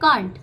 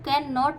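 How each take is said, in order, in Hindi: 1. दोनों शब्द मिलकर एक छोटे से शब्दांश में बोले जाते हैं। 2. दोनों शब्द अलग-अलग और पूरे बोले जाते हैं। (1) "हम इसको शॉर्ट में पढ़ेंगे कांट" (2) "हम कैन नॉट नहीं पढ़ते हैं"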